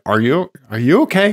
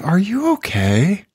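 First: It sounds snide and judgmental. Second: It sounds warm and genuinely concerned. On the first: The question implies something is wrong with the listener. "Like I hear it in that voice" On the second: The question expresses real concern for the listener. "instead of like, hey"

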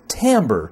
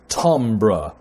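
First: The word is given an ordinary English pronunciation. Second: The word is given a French pronunciation. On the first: "It's timbre" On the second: "if you want to be French"

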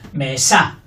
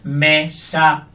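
First: The stress is on the second syllable. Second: Both syllables are equal, robotic and flat. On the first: "Fuerte la segunda" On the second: "la robótica"

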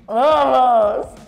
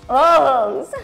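The two takes are said the same way.

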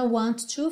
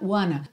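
First: Two full words, with a clear t sound. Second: Blended into one word, with no t sound. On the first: "Junta want to" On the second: "fica wanna"

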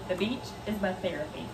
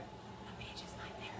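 First: It is said loudly, nearly screamed. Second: It is said quietly, in a whisper.

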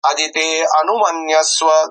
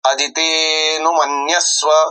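First: An extra 'a' is pronounced after 'adite'. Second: No extra 'a' is pronounced after 'adite'. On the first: The speaker calls it wrong. "असे, ... उच्चारू नये" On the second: The speaker calls it right. "त्याला अ उच्चारू नये"

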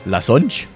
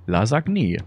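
First: The word ends with a clipped 'onch' sound. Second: The word ends with a soft 'anje' sound. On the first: The speaker calls it wrong. "Das heißt doch nicht Lasonch" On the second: The speaker calls it right. "Sag ich doch"

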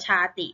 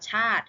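First: A short i vowel is sounded after the t. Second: The word ends on t with no vowel. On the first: The speaker calls it wrong. "เราจะไม่อ่านว่าชาติ" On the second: The speaker calls it right. "เราจะอ่านว่าชาติ, เพราะว่าสระอิไม่ออกเสียง"

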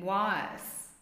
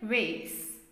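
First: It is said with a British accent. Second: It is said with an American accent.

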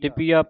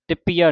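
First: The consonant is said lightly, not doubled. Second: The consonant is said tightly, as if doubled. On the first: The speaker calls it right. "ਤਿਪੀਆ ਪਾਠ ਪੋਲਾ ਹੈ" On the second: The speaker calls it wrong. "ਨਹੀਂ ਕਹਿ ਦੇਣਾ"

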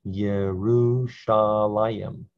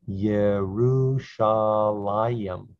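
The two takes are said the same way.

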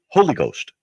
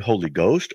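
First: The stress falls on the word Holy. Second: The stress falls on the word Ghost.

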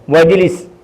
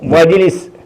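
Both takes have the same delivery.

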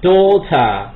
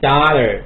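First: It is said in a British accent. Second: It is said in an American accent. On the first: "音是" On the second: "美音"

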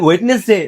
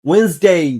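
First: The middle d sound is pronounced. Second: The middle d sound is silent. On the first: The speaker calls it wrong. "না রে মশাই, এই যে এই ডির উচ্চারণ নেই।" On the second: The speaker calls it right. "এই ডির উচ্চারণ নেই"

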